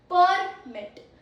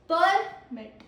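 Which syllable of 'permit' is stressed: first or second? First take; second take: first; first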